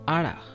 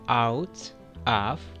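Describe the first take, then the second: First: The t sound is skipped and blended. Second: The t sound is clearly pronounced.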